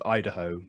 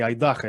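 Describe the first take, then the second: First: The stress falls where English speakers place it. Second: The stress falls where Russian speakers place it. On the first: "instead of Idaho with the stress" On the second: "the Russians say Idaho"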